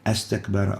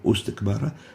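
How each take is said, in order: First: The word begins with an a vowel. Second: The word begins with a u vowel. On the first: "We don't say astakbara" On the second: "or ustakbara"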